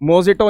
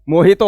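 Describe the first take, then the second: First: The middle consonant is a 'j' sound. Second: The middle consonant is an 'h' sound. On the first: The speaker calls it wrong. "मोजिटो नहीं होता" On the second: The speaker calls it right. "मोहितो होता है"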